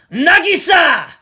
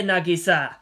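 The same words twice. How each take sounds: First: Calls the name out at full, drawn-out volume; hoarse shout. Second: Said in the usual way. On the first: A narrator's reading. Martin calling out to Nagisa, a loud, drawn-out yell. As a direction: yell the name across the park. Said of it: "he shouted hoarsely". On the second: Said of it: "he leered".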